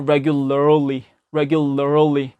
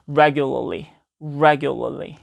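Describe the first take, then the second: First: "regularly" with every syllable out, "regu-ler-ly"; "regularly" said slowly as awkward "regu-ler-ly"; old laboured pronunciation. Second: "regularly" as a smooth "regu-l'ly", no curl of the R; "regularly" with the R melted into the L; smooth recommended pronunciation. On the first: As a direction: curl a full R before the last L in "regularly". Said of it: "옛날에 어떻게 발음했어요?". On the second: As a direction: keep the tongue nearly straight through "regularly". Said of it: "이렇게 발음을 하게 되고". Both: Shown as a demonstration.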